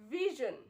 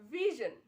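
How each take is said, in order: First: The middle consonant has a buzzing z sound. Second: The middle consonant has a buzzing z sound.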